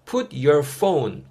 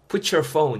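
First: The words are said separately, not linked. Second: The words run together, linked into one.

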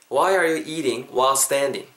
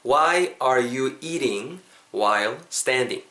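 First: The sentence is said at normal speed. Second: The sentence is said slowly.

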